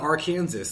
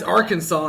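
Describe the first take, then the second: First: The word ends with a sounded s, like Kansas. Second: The word ends without an s sound. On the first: This would match how Kansas is said. The speaker calls it right. "and not Arkansas" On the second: This is how the state is actually called. The speaker calls it wrong. "I hate that it's Arkansas"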